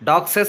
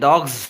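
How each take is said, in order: First: The word ends with an extra 'ses' syllable. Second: The word ends with a single 'z' sound. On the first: The speaker calls it wrong. "డాగ్సెస్ అనకూడదు" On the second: The speaker calls it right. "జ్ sound"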